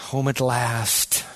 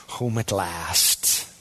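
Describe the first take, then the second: First: Home at last, drawn out slowly; slow, content sigh of relief; slow, peaceful relief. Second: Lower, hushed, very slow repeat; whispered-soft contentment, very slow; softer, slower echo. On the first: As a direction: savor the arrival, unhurried. Believer's confident attitude at arrival. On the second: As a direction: let it fade out like a sigh of peace. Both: Pretend.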